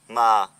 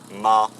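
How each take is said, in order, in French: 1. La hauteur descend sur le mot. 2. La hauteur reste basse sur le mot. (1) "Si on le prononce avec un accent qui tombe" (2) "il y a l'accent bas"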